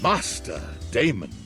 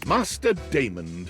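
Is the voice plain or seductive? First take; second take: seductive; plain. First: It is said in a seductive, sexier way. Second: It is said in a plain, neutral way.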